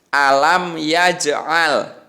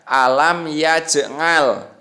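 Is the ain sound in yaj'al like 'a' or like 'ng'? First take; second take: a; ng. First: The ain is said as a throaty a sound. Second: The ain is said with a nasal ng sound. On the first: The speaker calls it right. "tapi harus a" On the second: The speaker calls it wrong. "tidak boleh dibaca alam yaj'al, gitu enggak boleh. Tapi tidak boleh nga"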